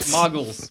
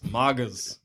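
First: The word ends with a clear l sound. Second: The word ends in a loose slurred vowel. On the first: "muggles is like the British thing" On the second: "when we come over here, it's slowly, as it gets hotter"

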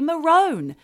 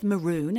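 First: The word is said the Australian way. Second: The word is said the general, non-Australian way. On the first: This is how Australians say it. "It has to be maroon" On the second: This is how it is said in most countries. "They're not happy with maroon as a colour"

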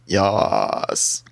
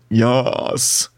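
First: It is said in a deep, guttural voice. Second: It is said in a plain, non-guttural voice.

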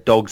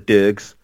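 First: The vowel is the standard short o sound. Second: The vowel is an er-like sound, locally accented.

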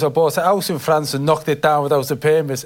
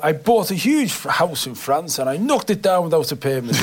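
First: It is said in the speaker's own ordinary accent. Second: It is said in the other guest's posh accent.

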